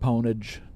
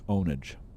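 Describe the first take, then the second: First: The word begins with a p sound. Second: The word begins with a vowel sound. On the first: The speaker calls it wrong. "So it's not pwnage" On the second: The speaker calls it right. "it's ownage"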